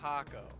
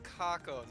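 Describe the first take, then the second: First: The name begins with an H sound. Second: The name begins with a K sound. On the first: The speaker calls it wrong. "not Hako" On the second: The speaker calls it right. "his name is Kako"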